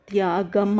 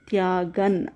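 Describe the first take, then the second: First: The word ends with an m sound. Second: The word ends with an n sound. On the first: The speaker calls it wrong. "త్యాగం అనకూడదు" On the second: The speaker calls it right. "ఇక్కడ న న అని పొల్లుంది"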